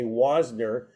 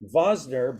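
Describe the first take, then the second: First: The name begins with a W sound. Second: The name begins with a V sound. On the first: The speaker calls it wrong. "you'd say Wosner" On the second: The speaker calls it right. "they actually pronounced it with a V"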